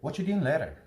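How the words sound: Words are run together and reduced, American style.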